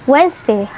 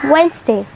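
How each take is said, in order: The two takes are said the same way.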